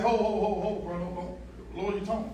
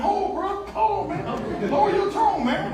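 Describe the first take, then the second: First: Hushed, submissive phone voice to the boss; submissive work voice. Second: Much higher-pitched, mock-alarmed protest; high, hammed-up reaction to being yelled at; mock protest at yelling. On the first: Acted. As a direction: plead very softly, like a meek employee. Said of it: "It's that submissive voice". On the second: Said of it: "So Mike starts yelling at me".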